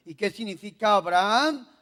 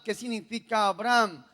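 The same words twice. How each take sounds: First: "Abraham" ending in a doubled a, a-bra-AAM; Abraham with long vowel. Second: "Abraham" said as two syllables, a-BRAM; Abram, short form. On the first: Preacher quizzing on the new name, "Abraham" with doubled final a. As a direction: draw out the last vowel of "Abraham". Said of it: "No se llamaba Abraham". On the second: Preacher quizzing on the first name, "Abraham" shortened to Abram. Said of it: "se llamaba Abraham". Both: Shown as a demonstration.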